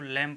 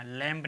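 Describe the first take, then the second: First: लैम said ending on m; silent b. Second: लैम्ब said with a b after the m; wrong b sounded. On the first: Teacher giving students the right लैम. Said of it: "इसको लैम पढ़ेंगे". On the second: Teacher showing students the wrong लैम्ब. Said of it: "लैम्ब नहीं कहेंगे". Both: Shown as a demonstration.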